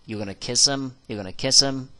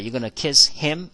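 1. 'him'의 h는 빠지고 앞 단어와 연결됩니다. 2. 'him'의 h는 분명히 발음됩니다. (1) "kiss him 이게 연결이 돼서 kiss him h 발음이 거의 안 납니다" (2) "이렇게 발음하지 않고요"

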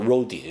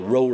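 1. 这个名字有两个音节，结尾是ee音。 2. 这个名字是一个音节，没有结尾元音。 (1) "好多人發音都知道叫roadie" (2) "用翻一個正確啲發音，好似road"

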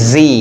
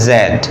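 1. অক্ষরটি 'zee' হিসেবে উচ্চারিত হয়। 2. অক্ষরটি 'zed' হিসেবে উচ্চারিত হয়।

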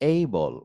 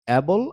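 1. প্রথম স্বরধ্বনিটি একটি গড়ানো 'ay'। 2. প্রথম স্বরধ্বনিটি 'cat' শব্দের 'a'-র মতো। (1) "এটার উচ্চারণ হবে কি? এই বল" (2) "অ্যাবল আর হবে না"

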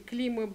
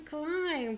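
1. Здесь короткий 'i' и на конце 'b'. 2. Здесь гласный 'ai' и без 'b'. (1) "Вот так все и читают" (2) "клайм произносится оно"

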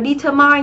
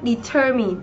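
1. Trọng âm không nằm ở âm tiết thứ hai. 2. Trọng âm nằm ở âm tiết thứ hai. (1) "Từ này đừng đọc là determine nhé" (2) "Trọng âm của chúng ta rơi âm tiết thứ hai"

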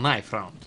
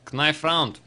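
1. Буква K в начале слова knife немая. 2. Буква K в начале слова knife произносится. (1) "Буковка K не читается" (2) "Как-то я не по-английски сказал"

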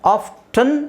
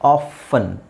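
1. ಮಧ್ಯದಲ್ಲಿ t sound ಉಚ್ಚಾರ ಆಗುತ್ತೆ. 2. ಮಧ್ಯದಲ್ಲಿ t ಸೌಂಡು ಸೈಲೆಂಟ್ ಆಗಿರುತ್ತೆ. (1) "ಆಫ್ಟನ್ ಅಂತನಾದರೂ ಹೇಳ್ಬೋದು" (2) "ಆಫನ್ ಅಂತನಾದರೂ ಹೇಳ್ಬೋದು"

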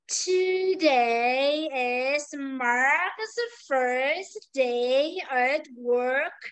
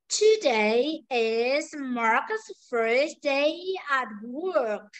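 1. Câu này được nói với tốc độ rất chậm. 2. Câu này được nói với tốc độ chậm. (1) "Tiếp tục là cô đọc chậm nữa cho bạn nghe này" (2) "Nhưng bây giờ câu nói chậm này"

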